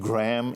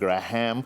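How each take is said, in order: First: It is said with an anglicized, Western accent. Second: It is said with an Indian accent. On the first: "my accent that had become a little more anglicized, the very way I was saying" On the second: "instead of"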